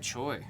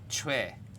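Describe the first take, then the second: First: The surname is said with an anglicized pronunciation. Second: The surname is said with a Korean pronunciation.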